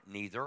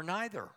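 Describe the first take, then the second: First: "neither" with a long EE; NEE-ther for "neither". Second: "neither" with an EYE sound; NIGH-ther for "neither". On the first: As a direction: say "neither" to begin like "knee". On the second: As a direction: say "neither" to begin like "night". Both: Shown as a demonstration. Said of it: "fight over how to pronounce a word".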